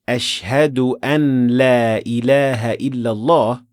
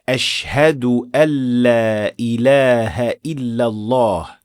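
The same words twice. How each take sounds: First: The n is pronounced clearly before the l. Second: The n is merged into the following l. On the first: The speaker calls it wrong. "the first one with idhar, so the clear pronunciation of the noon" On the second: The speaker calls it right. "the one with idgham"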